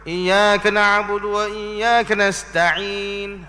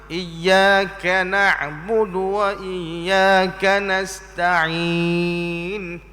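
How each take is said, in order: First: The vowel after the k is clipped short. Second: The vowel after the k is held fully. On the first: The speaker calls it wrong. "kaf tidak sempurna disebut" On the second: The speaker calls it right. "sepatutnya ... sempurna bunyi kaf tu"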